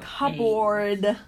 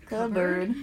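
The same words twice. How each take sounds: First: It is said in a New Zealand accent. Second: It is said in an American accent. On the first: "how I say cupboard" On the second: "how do you say it in American?"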